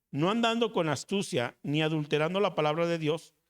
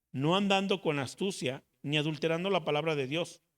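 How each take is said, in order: The two takes are said the same way.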